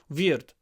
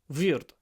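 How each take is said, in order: First: The first sound is close to a v. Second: The same.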